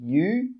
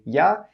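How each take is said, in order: First: The word is pronounced fully as 'you'. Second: The word is reduced to 'ya'. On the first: The speaker calls it wrong. "We don't say you" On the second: The speaker calls it right. "we say ya"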